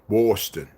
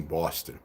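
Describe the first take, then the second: First: "Boston" with a broad, rounded first vowel; playful Boston accent. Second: Said in the usual way. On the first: Shown as a demonstration. Toying with the city name "Boston", hammed-up local accent.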